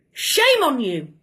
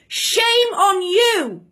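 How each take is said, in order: First: Said in the usual way. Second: Drawn out, slow scolding shame on you. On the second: Real, not acted. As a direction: scold him slowly and with weight. Angry rebuke to the Prime Minister.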